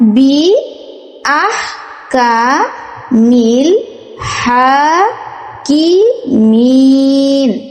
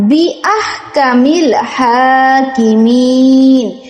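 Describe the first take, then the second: First: It is read broken into separate parts. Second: It is read as one smooth phrase.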